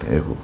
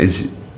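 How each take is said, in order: First: The name ends with a 'gup' sound. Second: The name ends with a 'jip' sound. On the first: This is the form in the Korean Bible. "저는 애굽이라 그랬죠" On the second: This is the English-style pronunciation. "그 영어식 발음은 이제 이 에집이에요"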